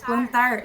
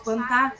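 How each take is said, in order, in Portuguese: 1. O som do R final é pronunciado. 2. O som do R final é apagado. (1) "em vez de produzir plantar" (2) "o apagamento da coda"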